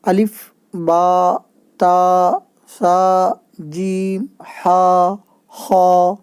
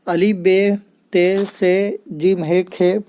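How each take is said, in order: First: The letter names end in an 'a' vowel. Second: The letter names end in an 'e' vowel. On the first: This is the Arabic way of naming the letters. The speaker calls it right. "अरबी में ये जो है ... ऐसे ये सही है" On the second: This is the Urdu way of naming the letters. The speaker calls it wrong. "ये सही नहीं है"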